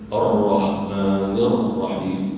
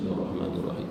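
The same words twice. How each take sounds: First: Ar-Rahmanir Rahim very slow, both rr rolled and held; slow, strong model of Ar-Rahmanir Rahim; shaddah recitation. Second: Ar-Rahmanir Rahim quick and soft with single r; soft, fast wrong reading of Ar-Rahmanir Rahim; shaddah dropped. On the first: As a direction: press long on each doubled r of "Ar-Rahmanir Rahim". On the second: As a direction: rush "Ar-Rahmanir Rahim" without pressing the r. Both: Shown as a demonstration. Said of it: "Jangan dibaca".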